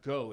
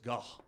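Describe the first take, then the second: First: It sounds like the English word go. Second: It is said the way Dutch speakers say it. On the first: The speaker calls it wrong. "it's not go" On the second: The speaker calls it right. "as I believe the Dutch people actually s- say it is"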